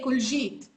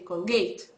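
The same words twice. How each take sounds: First: The middle consonant is a J sound. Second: The middle consonant is a G sound. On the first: "we don't have a G sound, we have a J, but I never say Colgate" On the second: "I say Colgate"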